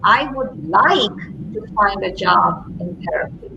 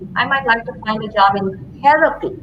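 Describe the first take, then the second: First: The stress falls on the word like. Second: The stress falls on the word therapy. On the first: The focus is on the reason behind the wish. "what's behind the like?" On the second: The focus is on the kind of work wanted. "put the emphasis on therapy"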